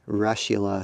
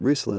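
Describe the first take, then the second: First: The first part sounds like the word 'Russian'. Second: The first part does not sound like 'Russian'.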